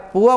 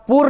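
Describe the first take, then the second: First: The word ends with an open a vowel. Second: The word ends with an r sound. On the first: The speaker calls it right. "पुआ बोलना है" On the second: The speaker calls it wrong. "पूर्व नहीं बोलना है"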